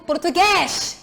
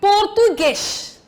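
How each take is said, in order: First: The final stressed vowel sounds open. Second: The final stressed vowel sounds closed. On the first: The speaker calls it wrong. "Eu não digo" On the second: The speaker calls it right. "o som sai fechado"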